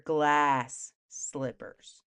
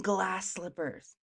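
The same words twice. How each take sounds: First: "Glass slippers" very slow and lower, a gap between words; incredulous repeat. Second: Said in the usual way. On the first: Acted. Storyteller querying the footwear, "Glass slippers" slowly spelled out in disbelief. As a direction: stretch "Glass", then set "slippers" apart. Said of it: "let's fall back here".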